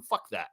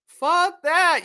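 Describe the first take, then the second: First: Soft, low throwaway "Fuck that"; quiet low scoff; muttered dismissal. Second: High, loud "Fuck that" punched out; pitched-up angry outburst; loud dismissal. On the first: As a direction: grumble it under your breath. Mutters, then repeats loudly. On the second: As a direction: shout it down. Repeats the dismissal loudly. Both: Real, not acted.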